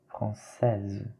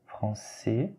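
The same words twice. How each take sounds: First: "française" ending in a voiced z; forme féminine. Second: "français" with a silent final s; forme masculine. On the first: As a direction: model "française", final -èze clearly sounded. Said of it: "féminin". (« française » avec un z final sonore) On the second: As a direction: model "français", ending on the open vowel. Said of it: "c'est masculin". (« français » sans consonne finale) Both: Shown as a demonstration.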